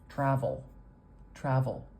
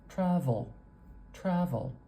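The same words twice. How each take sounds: First: "Travel" with the schwa almost gone into the L; syllabic L. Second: "Travel" ending in a weak schwa, then L; schwa plus L. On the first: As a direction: shrink the last vowel of "Travel" until it merges with L. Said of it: "the schwa is so stinking short that it almost disappears". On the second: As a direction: say "Travel" with a short uh before the final L. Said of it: "We've got a schwa, and then an L". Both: Shown as a demonstration.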